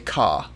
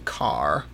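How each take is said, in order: First: It is said the British way without R. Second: It is said with an American R sound.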